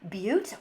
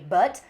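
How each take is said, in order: First: The vowel is a long 'oo' sound. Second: The vowel is a short 'uh' sound.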